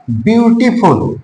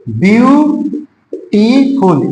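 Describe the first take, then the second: First: Said in the usual way. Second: "beautiful" very slow, first syllable held long, then a clear pause. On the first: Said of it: "जब हम pronunciation करते हैं". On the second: Shown as a demonstration. Teacher demonstrates a word of more than two syllables, syllable by syllable. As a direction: sound out "beautiful" in separated, stretched syllables. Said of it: "जब हम pronunciation करते हैं तो अधिक जाता है".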